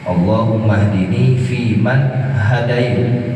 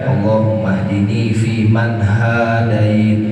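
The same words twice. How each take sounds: First: The first vowel of hadait is short. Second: The first vowel of hadait is long. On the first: The guidance is given by God to the servants. The speaker calls it right. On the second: Guidance is given mutually between both parties. The speaker calls it wrong. "kalau kita baca panjang ntar maknanya berubah"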